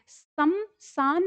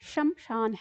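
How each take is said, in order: First: The word is said with plain 's' sounds. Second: The word is said with 'sh' sounds. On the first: The speaker calls it wrong. "ये समसान नहीं है" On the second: The speaker calls it right. "ये शमशान है"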